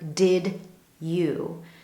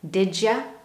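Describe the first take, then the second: First: The d and y sounds stay separate. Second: The d and y blend into 'j'. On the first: "You don't hear a clear did you" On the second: "we hear that combination, ja"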